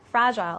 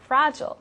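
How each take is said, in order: First: It is said with a British pronunciation. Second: It is said with an American pronunciation. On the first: "in the British accent, they like to say fragile" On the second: "in the American accent, we like to say fragile"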